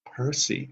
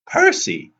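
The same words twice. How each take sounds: First: Softer, slightly raised warning. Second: Very high, loud cry of the name; urgent call. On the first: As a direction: say the name as a quiet warning. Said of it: "Annabeth warned". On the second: Urgent call in speeding taxi. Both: A narrator's reading.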